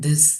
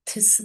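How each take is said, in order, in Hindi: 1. पहली ध्वनि एक वॉइस्ड th है। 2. पहली ध्वनि एक अनवॉइस्ड th है।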